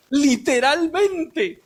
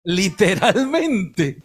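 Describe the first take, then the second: First: Literalmente, lento y más agudo, sin risa; enfático. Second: Literalmente, lento, grave y entre risas; riendo. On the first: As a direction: recalca despacio cada sílaba de literalmente. (predicador insiste en serio, lento y agudo) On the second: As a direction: dilo lento y riéndote. (predicador ríe del pan del cielo, lento y grave) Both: Shown as a demonstration.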